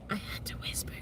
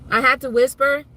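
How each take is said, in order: First: Unvoiced-breath whisper, very soft. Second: Said in the usual way. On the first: Shown as a demonstration. Streamer showing viewers her post-surgery voice, whisper. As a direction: demonstrate having to whisper.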